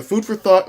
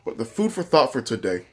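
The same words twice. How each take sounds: First: Talking through a mouthful of chips; mouth full. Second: Said in the usual way. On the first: Real, not acted. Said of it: "with my mouth full". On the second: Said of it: "sorry, I'm talking about my".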